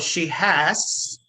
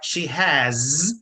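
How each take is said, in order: First: The word has ends with a voiceless s sound. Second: The word has ends with a voiced z sound. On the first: The speaker calls it wrong. "they won't replace it by s" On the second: The speaker calls it right. "voiced fricative z"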